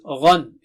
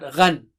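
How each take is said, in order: First: The gh sound is thick and heavy. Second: The gh sound is thin and light. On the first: The speaker calls it right. "it is Ghan" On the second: The speaker calls it wrong. "It is not Ghan"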